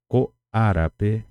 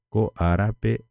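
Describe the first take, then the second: No difference in how they are said.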